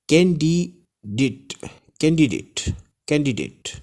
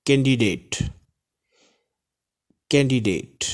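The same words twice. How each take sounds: First: कैंडिडेट with a short "dit" ending, first syllable by syllable; correct pronunciation. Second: कैंडिडेट with a long "date" ending; wrong pronunciation. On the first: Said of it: "नहीं पढ़ेंगे इसको". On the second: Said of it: "wrong जो लोग इसको पढ़ते हैं". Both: Shown as a demonstration.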